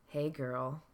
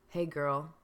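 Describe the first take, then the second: Both takes have the same delivery.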